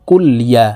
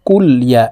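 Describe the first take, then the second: First: The lam carries a vowel, blending into 'ya'. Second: The lam carries a vowel, blending into 'ya'.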